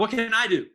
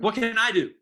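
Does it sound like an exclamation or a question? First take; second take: exclamation; exclamation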